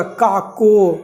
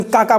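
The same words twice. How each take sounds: First: "काको" with a final o in place of the a of काका; imitated child's mispronunciation. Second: Said in the usual way. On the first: Teacher imitating a lisping child repeating काका, "काको" ending in o. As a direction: say "काको" like a lisping child missing the last vowel. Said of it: "मतलब कुछ अजीब type में बोलता है तोतला". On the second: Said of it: "हम उसको बोलेंगे".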